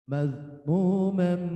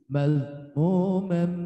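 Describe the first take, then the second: The two takes are said the same way.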